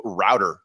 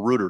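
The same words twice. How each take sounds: First: Said in the usual way. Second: "router" said as "rooter"; "router" with its first syllable rhyming with "boot"; alternate regional pronunciation. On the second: Shown as a demonstration. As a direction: say "router" with an oo, like "root". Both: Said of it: "depending on your locale".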